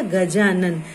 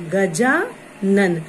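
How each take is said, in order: First: Said in the usual way. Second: Drawn-out word. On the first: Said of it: "तो ये क्या हो गया?". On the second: Shown as a demonstration. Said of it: "अ और आ".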